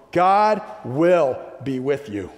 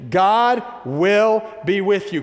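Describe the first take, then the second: First: Said in the usual way. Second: High, slow, ringing proclamation; positive proclamation. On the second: Real, not acted. Preacher leading the congregation to repeat it, proclaiming high and slow. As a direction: proclaim it slowly, stretching each word. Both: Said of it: "a little bit more positive proclamation".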